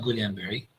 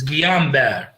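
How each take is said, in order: First: Guillain-Barré misread as spelled, roughly "gulian-barry"; wrong Guillain-Barré, L voiced and ending in "-ee"; Iraqi mispronunciation. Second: Guillain-Barré said French-style, roughly "ghee-yan-BAR"; French-style Guillain-Barré, silent double L; correct pronunciation. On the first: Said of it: "This is Iraqi, uh, pronunciation". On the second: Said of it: "the correct pronunciation". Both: Shown as a demonstration.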